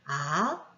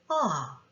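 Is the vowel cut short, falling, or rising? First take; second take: rising; falling. First: The pitch of the vowel rises. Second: The pitch of the vowel falls. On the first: "올라가거나" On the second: "내려오거나"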